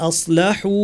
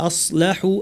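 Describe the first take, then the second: No difference in how they are said.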